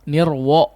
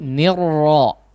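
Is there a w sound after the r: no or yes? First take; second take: yes; no. First: A w sound slips in after the r. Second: The r is heavy, with no w sound. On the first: The speaker calls it wrong. "Bukan nirro, nirwo ya" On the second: The speaker calls it right. "tapi nir itu ro yang ditebalkan"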